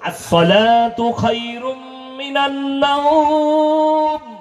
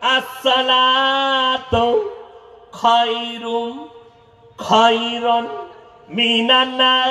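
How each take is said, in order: First: No extra word is added and it ends 'nawm'. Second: An extra word is added and it ends 'nar'. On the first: The speaker calls it right. "মাদ্রাসার তালিব ইলমকে দাঁড় করান, আজান দিতে বলুন" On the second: The speaker calls it wrong. "ফজরের সময় আজান দিচ্ছে চাচা"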